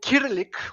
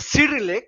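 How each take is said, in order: First: The word begins with a hard K sound. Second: The word begins with a soft S sound. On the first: The speaker calls it right. "with hard K" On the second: The speaker calls it wrong. "if you insist, of the wrong pronunciation"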